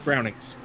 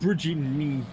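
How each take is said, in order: First: The name ends with an s sound. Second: The name ends without an s sound. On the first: The speaker calls it right. "but it's uh" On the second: The speaker calls it wrong. "the first time I tried to pronounce it, I was like ah"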